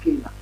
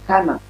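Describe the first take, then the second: First: The first vowel is an English 'ay' sound. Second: The first vowel is an open 'ah' sound. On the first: The speaker calls it wrong. "It's not Cana" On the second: The speaker calls it right. "it's Kana, an"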